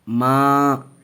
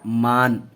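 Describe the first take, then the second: First: The vowel is nasalized with no full n. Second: The word ends with a fully pronounced n. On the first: "गुन्ना करके पढ़ेंगे" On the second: "नुक्ता अगर लगा देंगे तो इसको फिर पढ़ेंगे"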